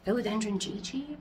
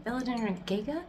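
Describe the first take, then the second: First: "Gigi" said with soft j sounds, questioning; GIGI pronunciation. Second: "Giga" with hard g's, rising as a question; GIGA pronunciation. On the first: Plant owner unsure how to say the name, "Gigi" with soft g's. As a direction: try "Gigi" as JEE-jee. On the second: Plant owner testing another pronunciation, "Giga" with hard g's, questioning. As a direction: try "Giga" as GHEE-guh or GIG-uh, softer. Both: Shown as a demonstration. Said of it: "how do people say it?".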